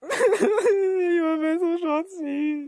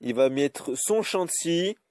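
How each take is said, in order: First: Very high, slow, laughing fake sob; mock sobbing whine. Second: Said in the usual way. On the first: Gamer repeating the opponent's move as a fake sob. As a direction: drag it out like a crybaby through laughter.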